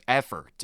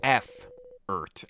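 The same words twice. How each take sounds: First: Said in the usual way. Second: F-ert said with the F letter spelled out first; mispronounced effort. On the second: Shown as a demonstration. Headmaster joking to students, saying F-ert with the letter F. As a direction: say F-ert, starting with the letter name F. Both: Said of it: "it starts with F".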